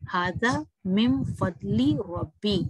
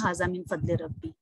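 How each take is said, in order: First: The vowel after 'fadl' is a long 'ee'. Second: The vowel after 'fadl' is an 'ay' sound. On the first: The speaker calls it right. "ली ए नहीं पढ़ेंगे" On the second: The speaker calls it wrong. "कई लोग ये ऐसी गलतियां करते हैं"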